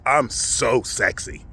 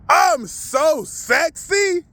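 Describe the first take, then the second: First: It is said softly, without projecting. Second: It is said boldly and projected loudly.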